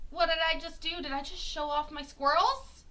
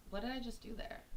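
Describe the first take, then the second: First: Higher, rising coy questions; playful mock surprise. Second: Soft, under the breath; quiet mock puzzlement. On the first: Streamer showing off her squirrels, higher playful mock surprise. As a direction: feign surprise, pitch lifted. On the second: Streamer noticing what she did, soft mock puzzlement. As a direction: wonder softly to yourself. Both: Teasing reveal of squirrel background.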